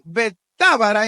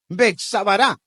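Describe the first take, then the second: First: The name is said without a ts sound. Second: The name is said with a ts sound.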